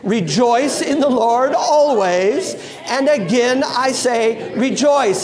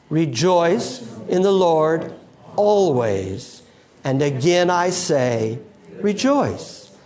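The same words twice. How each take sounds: First: It is said in a happy, joyful tone. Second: It is said in a plain, neutral tone. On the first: "Now say it like you're happy" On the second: "Say it with me"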